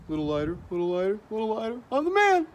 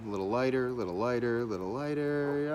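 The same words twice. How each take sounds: First: Mock triumphant painter. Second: Lightly acted, quick self-talk while working; hint of someone concentrating on fine shading; artist absorbed in shading. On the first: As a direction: build from working self-talk to a high, hammed-up boast. Mock porch painter building to triumph. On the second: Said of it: "somebody sitting there and going".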